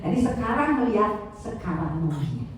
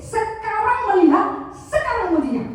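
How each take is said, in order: First: Said in the usual way. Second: "Sekarang" drawn out slow and higher, each time stressed. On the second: Shown as a demonstration. Trainer drilling the staff: "sekarang" slow and stressed. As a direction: lean hard on "sekarang" both times. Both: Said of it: "Yang kedua, up to date".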